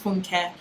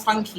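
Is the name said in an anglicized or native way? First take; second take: native; anglicized. First: The name is said in its native way. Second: The name is said in an anglicized way. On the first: The speaker calls it right. "your name is" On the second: The speaker calls it wrong. "No more"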